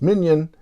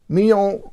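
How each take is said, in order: First: The name sounds like the English word minion. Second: The name has a French pronunciation. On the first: Some other people say it this way. "I've heard some people refer to her as Mignon" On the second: This is the original pronunciation. "I'm going to try and do the French pronunciation"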